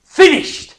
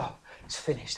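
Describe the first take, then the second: First: "Finished!" shouted high and loud in triumph; cried out. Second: "Oh, it's finished" breathed out low and soft, dying away; feeble last gasp. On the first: Acted. Jesus on the cross crying out, triumphant shout. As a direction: ring out the word like a victory cry. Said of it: "cried out". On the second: Shown as a demonstration. Preacher showing the wrong reading of Jesus' words, weak gasp. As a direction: sigh it out like a defeated final gasp. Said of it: "and it was a sort of last gasp".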